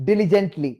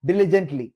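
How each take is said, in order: Both takes have the same delivery.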